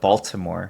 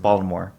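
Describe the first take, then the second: First: The middle T sound is clearly pronounced. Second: The middle T sound is dropped. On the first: The speaker calls it wrong. "You don't pronounce that T. It's not like Baltimore" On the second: The speaker calls it right.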